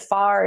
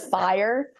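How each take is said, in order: First: The vowel is flattened in a country accent. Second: The vowel is a full diphthong, neutral accent. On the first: The speaker's home accent slipped out. The speaker calls it wrong. "I said far instead of fire" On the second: This is how the speaker means to say it. The speaker calls it right. "instead of fire"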